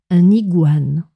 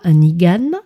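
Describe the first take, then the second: First: The g is followed by a w sound. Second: The g is followed directly by an a sound. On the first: The speaker calls it right. "mais on dit bien un iguane" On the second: The speaker calls it wrong. "on ne prononce pas un igane"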